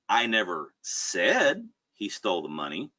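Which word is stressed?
said. The word "said" carries the stress. It was implied some other way, not spoken. "Maybe I insinuated it in some other way. Maybe it wasn't verbal"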